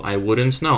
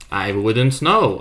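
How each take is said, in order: First: Said in the usual way. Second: "I wouldn't know" slowly, with a falling end; slow and deliberate. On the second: Shown as a demonstration. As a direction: drag "I wouldn't know" out and drop it.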